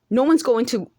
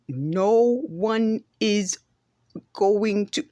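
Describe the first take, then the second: First: The words are contracted and blended together quickly. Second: Each word is carefully separated and over-enunciated. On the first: The speaker calls it right. "and then like that, bring it together" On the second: The speaker calls it wrong. "that's not how a native speaker speaks"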